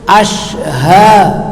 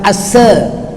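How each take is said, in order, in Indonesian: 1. Kata ini diawali dengan bunyi 'sh'. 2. Kata ini diawali dengan bunyi 's' biasa. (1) "Ashha, bukan asa" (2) "bukan asa"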